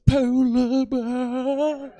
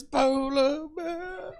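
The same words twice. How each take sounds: First: Very slow, drawn-out, guilt-laden polar bear; guilty David Attenborough. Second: Slow, reproachful polar bear like a nagging mother; guilt-tripping Attenborough. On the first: Comic mocking Attenborough's guilty tone at the crowd. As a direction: stretch it out with heavy guilt. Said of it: "hear the guilt in his voice when he says". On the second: Comic comparing Attenborough to his guilt-tripping mother. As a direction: lay on the guilt, drawn out. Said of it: "like my mother says". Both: Retold or imitated.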